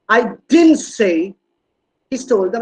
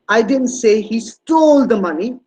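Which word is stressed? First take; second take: didn't; stole. First: The stress falls on the word "didn't". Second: The stress falls on the word "stole". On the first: It is strongly denied that it was said. "Look at the stress on didn't. It's a strong negation" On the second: He did something with the money other than steal it. "He must have done something else with the money, but it's not stealing"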